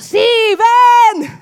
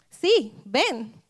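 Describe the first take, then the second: First: It is said loudly, like shouting. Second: It is said at normal volume.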